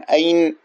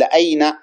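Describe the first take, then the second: First: أين cut short as "ayn", final n silent with no vowel; أين ending in a dead stop on the n; wrong sukun ending. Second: Said in the usual way. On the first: Shown as a demonstration. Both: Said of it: "لو بنيته على السكون سيكون أين".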